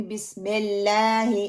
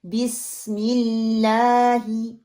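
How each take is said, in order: First: बिस्मिल्लाही as BISMELLAAHE, spread E; deliberate mistake. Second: Slow BISMILLAAHI, pure I, long LAA; thin laam. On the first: Teacher showing her own mistake, BISMELLAAHE. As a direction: turn the I vowels of बिस्मिल्लाही into E. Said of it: "तो ये मैं गलती कर रही". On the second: Teacher modelling बिस्मिल्लाही correctly, drawn out. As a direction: hold the light LAA of बिस्मिल्लाही. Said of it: "जेर आ रही है". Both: Shown as a demonstration.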